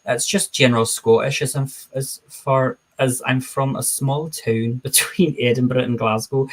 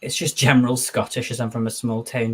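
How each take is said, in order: First: Put-on general Scottish accent, "town" said as "toon". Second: Said in the usual way. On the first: Shown as a demonstration. Streamer demonstrates small-town Scottish for chat, in a put-on Scottish accent. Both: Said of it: "let me do my amazing Scottish accent".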